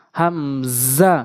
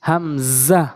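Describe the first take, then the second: First: হামজা slowly stretched; হামজা held long on each syllable; drawn-out hamza. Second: Said in the usual way. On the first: Shown as a demonstration. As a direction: draw হামজা out slow. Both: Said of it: "demo then drawn take".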